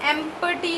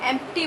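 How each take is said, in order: First: A clear p sound is heard after the m. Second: No p sound is heard after the m. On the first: The speaker calls it wrong. "एम्पटी नहीं बोल रही मैं" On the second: The speaker calls it right. "पी की जो आवाज़ है वो नहीं आ रही"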